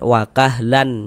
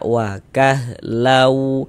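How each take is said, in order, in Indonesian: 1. Bunyi n di akhir diucapkan dengan jelas. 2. Bunyi n menyatu dengan bunyi w yang ditahan. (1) "Jangan dibaca wakahlan" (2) "Tapi kita baca wakahlau"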